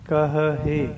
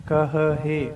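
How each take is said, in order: The two takes are said the same way.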